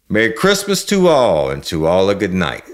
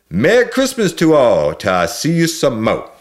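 First: Joyful exclamation. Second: High, loud Cajun holiday shout. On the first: A narrator's reading. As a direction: call it out over the sleigh bells. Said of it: "I heard him exclaim". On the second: Acted. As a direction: bellow it in Cajun accent as the sleigh leaves. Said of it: "I hear him shout out loud".

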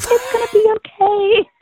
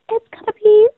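First: High, soothing friend voice, much higher; a sweet, reassuring pageant girl calming a nervous newcomer; imitating Rachel Wyatt. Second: Imitating Rachel's calm voice. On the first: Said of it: "That's pretty good". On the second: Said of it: "I can't do her voice".

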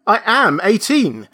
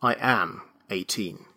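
First: Higher and louder insistence; insisting. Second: Weary. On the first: Benjamin insists again to the registrar, stubborn. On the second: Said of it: "smiled wearily". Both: A narrator's reading.

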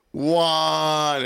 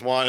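First: Long, higher-pitched mock holler; mock yell. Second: Said in the usual way. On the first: Translator answering how to say off, drawn-out mock yell. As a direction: draw it out as a retold yell. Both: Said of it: "he yells Juan".

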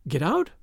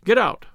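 First: "Get out" softer, rising into a question; questioning echo. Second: "get out" as a falling command; firm command. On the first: The order echoed in disbelief. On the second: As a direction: order "get out" with a higher start, then a drop. Tommy orders the girls out. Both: A narrator's reading.

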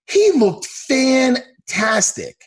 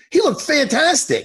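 First: FANTASTIC stretched out slowly and high; slow, emphatic "fantastic", each part stretched; drawn-out emphasis. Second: High-pitched, gushing hype; excited, high-pitched emphatic praise. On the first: Repeats praise, stretched out for emphasis. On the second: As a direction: rave about the fighter. Hyping up a fighter's performance. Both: Real, not acted.

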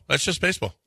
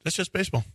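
First: Lightly voiced Bish, a touch higher; a hint of Bish shrugging it off; mild imitation of a shrugging coach. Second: Softer lightly voiced Bish; a hint of Bish shrugging it off; quiet mild imitation of a shrugging coach. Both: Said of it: "That's my Bish imitation".

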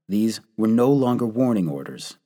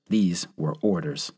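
First: Said in the usual way. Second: Grave, final "These were orders"; stress on THESE. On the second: A narrator's reading. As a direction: land on "These" then fall away.

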